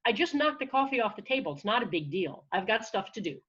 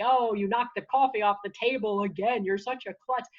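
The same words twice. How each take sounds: First: Brisk brush-off of the inner critic; lightly acted matter-of-fact self-defence; taking control. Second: Lightly acted scolding inner critic; negative self-talk voice. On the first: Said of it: "I can take control by going". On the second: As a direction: needle yourself over a silly slip. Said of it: "negative self-talk voice in your head".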